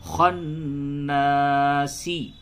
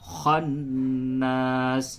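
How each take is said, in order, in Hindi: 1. यह शब्द छोटी i स्वर से खत्म होता है। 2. यह शब्द s की आवाज़ पर खत्म होता है। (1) "सीन से सी" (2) "वक्फ करेंगे क्या होगा"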